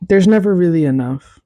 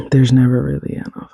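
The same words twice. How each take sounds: First: Never lifted higher and punched; stress on never. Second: Said in the usual way. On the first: Shown as a demonstration. Telling listeners lasagna runs out, stressing never. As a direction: hit never up high.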